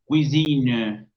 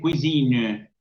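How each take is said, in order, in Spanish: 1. Se oye una vocal débil después de la n final. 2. Se oye una vocal débil después de la n final.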